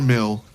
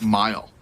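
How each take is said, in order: First: The vowel is a short ih sound. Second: The vowel is an eye sound. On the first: The speaker calls it wrong. "nor mill" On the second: The speaker calls it right. "but mile"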